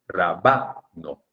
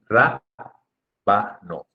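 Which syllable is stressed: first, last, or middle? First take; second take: middle; first. First: The stress is on the middle syllable. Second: The stress is on the first syllable. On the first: The speaker calls it wrong. "Si fuera grave sería rabano" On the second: The speaker calls it right. "Y por eso se dice rábano"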